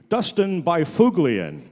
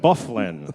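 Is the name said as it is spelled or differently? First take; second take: as spelled; differently. First: The name is read the way it is spelled. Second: The name is said unlike its spelling. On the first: The speaker calls it wrong. "that's the one name that I kind of botched up" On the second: The speaker calls it right. "they pronounce that Byfuglien"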